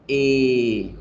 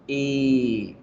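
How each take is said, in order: Both takes have the same delivery.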